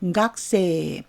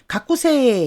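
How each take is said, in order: First: The vowel after the k is nearly silent. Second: The vowel after the k is fully pronounced. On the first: The speaker calls it right. "약하게 합니다. 거의 발음이 안 들려요" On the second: The speaker calls it wrong. "가꾸세 이렇게 하지 않았죠?"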